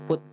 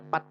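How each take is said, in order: First: The vowel sounds like 'u'. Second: The vowel sounds like 'a'. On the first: The speaker calls it right. "tapi put" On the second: The speaker calls it wrong. "jangan dibacanya pat"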